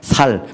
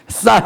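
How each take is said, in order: First: The first consonant is a plain s. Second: The first consonant is a tense s. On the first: The speaker cannot pronounce the sound and is exposed as an outsider. The speaker calls it wrong. "살 그럼 죽는 거예요" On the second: This is the required local pronunciation. The speaker calls it right. "쌀 해봐"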